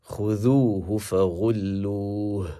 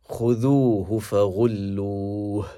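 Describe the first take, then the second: No difference in how they are said.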